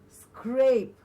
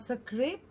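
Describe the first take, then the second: First: The opening consonant cluster glides smoothly. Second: The opening consonant cluster is broken up. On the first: The speaker calls it right. "but scrape" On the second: The speaker calls it wrong. "Not scrape"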